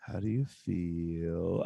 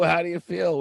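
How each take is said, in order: First: Slow, soft, lower gushing question; touchy-feely inner child. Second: High, loud scornful repeat; mock shouted quote. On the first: Pretend. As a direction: ask it slowly and softly, all feelings. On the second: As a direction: bark the question back in scorn. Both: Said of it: "she says".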